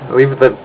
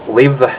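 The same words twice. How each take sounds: The two takes are said the same way.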